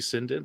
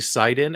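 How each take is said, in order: First: The name has an n sound in the middle. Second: The name has no n sound in the middle. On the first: This is how the speaker says it. "and I say Sinden" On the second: This is how many other people say it. "there's a lot of people that say Sidon"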